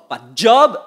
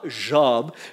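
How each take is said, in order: First: The word starts with an English-style 'dj' sound. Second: The word starts with a soft French 'zh' sound. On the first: It means employment, a work position. The speaker calls it wrong. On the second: It is the name of the man in the Bible. The speaker calls it right. "Job est un homme"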